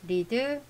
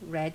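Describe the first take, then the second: First: The vowel is long, like 'reed'. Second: The vowel is short, like 'red'. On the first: It is the present-tense verb form. "동사가 리드인데" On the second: It is the past participle form. "과거분사도 뭐다? 모양 같은데 발음은 레드"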